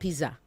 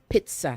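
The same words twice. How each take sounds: First: The middle consonant is a plain 'z' sound. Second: The middle consonant is a 'ts' sound. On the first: The speaker calls it wrong. "not pizza" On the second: The speaker calls it right. "The double Z is tss"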